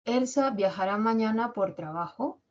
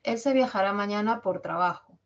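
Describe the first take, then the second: First: Pregunta con la última o de "trabajo" como un gallito; final en falsete. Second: Enunciativa que termina cayendo en "trabajo"; informa, bajando la voz en "trabajo"; tono bajo descendente. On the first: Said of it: "Esa última o es como un gallito". (entonación interrogativa, "trabajo" hacia arriba) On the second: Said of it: "Esa es enunciativa". (entonación enunciativa, "trabajo" hacia abajo) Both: Shown as a demonstration.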